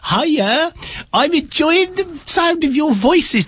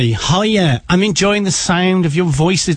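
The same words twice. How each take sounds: First: It is read in an exaggerated put-on voice. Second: It is read in the speaker's normal voice.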